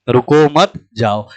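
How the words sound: There is a pause after मत.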